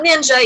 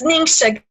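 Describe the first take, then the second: First: The middle consonant is a 'j' sound. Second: The middle consonant is a soft 'sh' sound. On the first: The speaker calls it wrong. "so not ninja" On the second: The speaker calls it right. "pronounced Ningxia"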